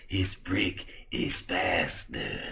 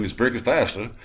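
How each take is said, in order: First: Slow, hushed creepy doctor voice; creepy, drawn-out near-whisper; Victor. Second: Said in the usual way. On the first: Acted. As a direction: drag it out eerily, softly. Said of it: "why do you talk like that".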